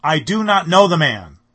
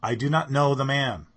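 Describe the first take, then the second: First: Shouted, much louder, higher, stress on know; furious sworn shout; cursing, swearing denial. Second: Louder, higher sworn denial; firm denial, louder; denial with an oath. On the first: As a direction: explode with a curse behind it. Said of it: "invoke a curse on himself and to swear". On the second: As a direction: push him away with the words. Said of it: "denied it with an oath". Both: Acted.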